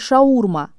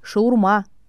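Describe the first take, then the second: First: The stress is on the second syllable. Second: The stress is on the third syllable. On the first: The speaker calls it wrong. "«шаурма» с ударением на второй слог" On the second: The speaker calls it right. "правильный вариант – «шаурма» – ударение на «а»"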